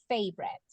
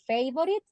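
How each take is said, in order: First: The word is said with two syllables. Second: The word is said with three full syllables. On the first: The speaker calls it right. "we pronounce it favorite. Two syllables" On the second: The speaker calls it wrong. "We don't say favorite"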